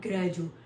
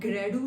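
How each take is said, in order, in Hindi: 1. इस अक्षर को 'j' ध्वनि के साथ बोला जाता है। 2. इस अक्षर को सादी 'd' ध्वनि के साथ बोला जाता है। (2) "ग्रेडू नहीं होता"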